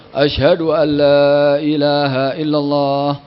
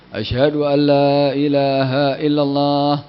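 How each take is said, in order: The two takes are said the same way.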